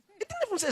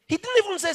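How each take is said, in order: First: Didn't pitched much higher; high emphasis on didn't. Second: Didn't pitched much higher and louder; high emphasis on didn't. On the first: Preacher repeating the point, didn't pitched high. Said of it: "emphatic high stress repeated". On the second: Preacher stressing to the congregation, didn't high and loud. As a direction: hit didn't hard and high. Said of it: "emphatic high stress". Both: Real, not acted.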